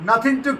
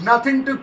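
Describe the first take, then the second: No difference in how they are said.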